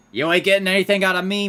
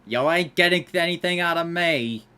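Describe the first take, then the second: First: Fast, loud, high taunt; defiant shout. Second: Loud, high, falling at the end; defiant declaration. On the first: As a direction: yell it back at the Mafia, defiant. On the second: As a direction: state it firmly, ending down. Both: Pretend. Defying the Mafia in game.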